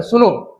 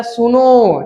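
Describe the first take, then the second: First: Said in the usual way. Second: सुनो with the final vowel held long, pluta length; सुनो called out with a long, lingering ओ; drawn-out call. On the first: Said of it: "ये तो नहीं बोल देते सुनो". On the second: Shown as a demonstration. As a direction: stretch the last vowel of सुनो as if calling someone far off. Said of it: "ऐसे बोलते हैं सुनो".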